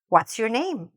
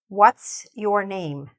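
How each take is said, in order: First: It is said at a normal speed. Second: It is said slowly and carefully.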